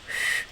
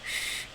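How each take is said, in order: First: The sh is made with a curled-back tongue. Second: The sh is made with a palatalized tongue. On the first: "and retroflexed is sh" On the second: "Palatalized is sh"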